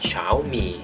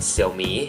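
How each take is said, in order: First: The name is said with Chinese pronunciation. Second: The name is read in a Thai-style way. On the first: "จริงๆภาษาจีนเนี่ยเขาจะอ่านออกว่า" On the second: "บางคนอาจจะอ่านว่า"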